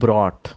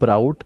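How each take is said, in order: First: The vowel sounds like 'aw' in 'saw'. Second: The vowel sounds like 'ow' in 'cow'. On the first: The speaker calls it right. "It's ब्रॉट" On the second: The speaker calls it wrong. "It's not ब्राउट"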